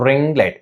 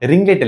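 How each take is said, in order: First: It is said slowly with precise, separated words. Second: It is said quickly and run together. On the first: Trying to sound polished and perfect. "அழகா பேசுனா ... இப்படி பேசணும்" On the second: Ordinary everyday speech without worrying about sound. "இல்ல"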